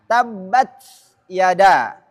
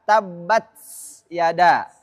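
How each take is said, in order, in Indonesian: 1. T berakhir bersih dengan hembusan napas, tanpa bunyi s. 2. T berakhir dengan desis seperti s yang ditambahkan.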